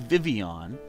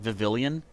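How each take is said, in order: First: The L sounds in the name are silent. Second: The L sounds in the name are pronounced. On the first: The speaker calls it right. "So it is supposed to be Vivian" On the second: The speaker calls it wrong. "I like to pronounce it Vivillon, just for fun"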